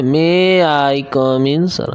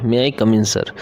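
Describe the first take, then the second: First: "May I come in, sir" stretched slowly with wavy pitch; exaggerated intonation. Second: Said in the usual way. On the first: Shown as a demonstration. Teacher showing how nobody talks in class, overdone slow intonation. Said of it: "हम लोग तो कभी class में ऐसे नहीं बोलते". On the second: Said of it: "हम लोग क्या बोलते हैं".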